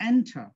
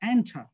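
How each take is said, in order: The two takes are said the same way.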